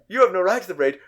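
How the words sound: It is said in an angry, lashing-out tone. The speaker is attacking the other person in anger. The speaker calls it right. "more lashing out"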